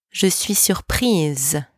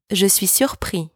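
First: "surprise" ending in a long French "eez"; French "surprise" with a buzzed z ending; voiced final consonant. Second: "surpris" ending on an open "ee"; French "surpris", last s left silent; silent final consonant. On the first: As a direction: say "surprise" slowly, sounding the final z. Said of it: "For a woman, you would say". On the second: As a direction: say "surpris" with no z sound at the end. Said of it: "Do you hear the difference?". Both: Shown as a demonstration.

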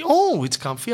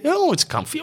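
First: Mock saleswoman again. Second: Squeaky high delighted "Oh, it's comfy"; mock saleswoman. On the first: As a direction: repeat it high but easing off. Salesperson voiced, repeated take. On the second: To the customer, salesperson gushes in a mock high voice. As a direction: pitch "Oh" way up, gushing.

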